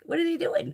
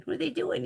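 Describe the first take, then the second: First: High, fretting question that falls at the end; anxious new-cat worry. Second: High, hushed worried question rising at the end; softer anxious repeat. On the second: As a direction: ask it again, quieter and curious. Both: Retold or imitated. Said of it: "it's just like".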